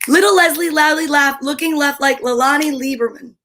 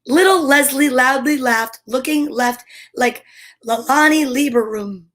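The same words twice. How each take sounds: First: It is said at a faster pace. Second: It is said at a slower pace.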